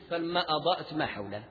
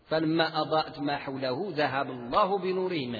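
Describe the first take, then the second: First: The recitation stops right after ما حوله. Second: The recitation continues past ما حوله without stopping. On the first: The speaker calls it wrong. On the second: The speaker calls it right.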